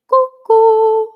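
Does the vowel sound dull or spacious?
spacious. It sounds open and spacious with a lifted palate. "you're going to feel your soft palate lift and you're going to hear that uh, spacious sound"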